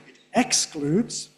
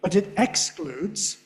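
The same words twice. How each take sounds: First: Excludes stressed on the X, slow; emphatic stress. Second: Excludes with the X punched; slow, leaning on excludes; emphatic stress. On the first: Teacher repeating emphatic stress on excludes. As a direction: hit the X in excludes. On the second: Teacher demonstrating emphatic stress on excludes. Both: Shown as a demonstration. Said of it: "nice emphatic stress on the X there".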